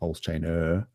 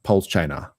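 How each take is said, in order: First: The word ends with a full 'er' sound. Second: The word ends with an open 'ah' sound. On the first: "it sounds a bit weird" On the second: "we tend to actually put in like an A instead of an er at the end"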